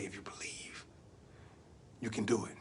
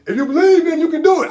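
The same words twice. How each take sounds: First: Low, very soft near-whisper; hushed in the ear. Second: High, loud motivational yell; rousing shout. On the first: Uncle leans to nephew's ear, hushed encouragement. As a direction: murmur it close into his ear. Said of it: "Leaned over to my ear". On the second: Uncle firing up nephew before the flip, shouting. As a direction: belt it out to fire him up. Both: Acted.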